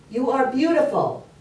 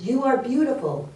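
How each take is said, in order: First: Higher-pitched, lilting call; acted dad calling to the echo; father calling out. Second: Higher-pitched mimicked echo; acted voice answering from afar. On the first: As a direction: call the praise out to the forest. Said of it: "And his dad said". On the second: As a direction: sing the praise back like an echo. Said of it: "And the voice says".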